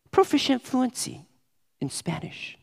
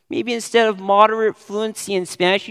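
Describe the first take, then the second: First: Lifted, inflated job-application phrasing; mock résumé boast. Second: Said in the usual way. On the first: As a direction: puff it up like a résumé line. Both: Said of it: "you say".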